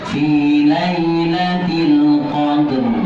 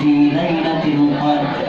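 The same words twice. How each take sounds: First: The final r sound is clearly pronounced, with echo. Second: The final r sound is dropped, no echo. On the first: The speaker calls it right. "Suara e-nya jelas, mengalirnya roh jelas" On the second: The speaker calls it wrong. "Biasanya kita dengar huruf rohnya dibaca enggak? Enggak"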